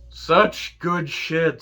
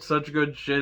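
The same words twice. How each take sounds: First: "Such good shit." drawn out slowly, higher and louder, savoured; slow relishing praise. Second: Said in the usual way. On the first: Shown as a demonstration. Host relishes MJF's line, drawing out his slow, delighted praise. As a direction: savour every word, stretching "Such" long and high.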